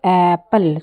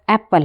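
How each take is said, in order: First: "एप्पल" with the opening vowel held long; "एप्पल" as aaa-pple, for learners; drawn-out first vowel. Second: Said in the usual way. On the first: Shown as a demonstration. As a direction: stretch the start of "एप्पल" to show its vowel. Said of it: "ए की sound आ रही है". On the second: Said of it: "एप्पल में ए की sound आ रही है".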